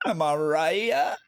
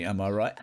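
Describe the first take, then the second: First: Higher, louder, slow "right" rising; milk the "Am I right?" for the chat; drawn-out teasing "right" sliding up; smug repeat. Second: Said in the usual way. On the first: Shown as a demonstration. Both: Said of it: "Takes notes".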